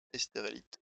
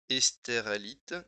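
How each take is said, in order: First: Said in the usual way. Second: Estérélite said slowly and louder, each syllable spelled out; careful pronunciation. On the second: Shown as a demonstration. Editor checking how Estérélite is pronounced, slow and careful. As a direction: test Estérélite aloud syllable by syllable. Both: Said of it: "avec les prononciations".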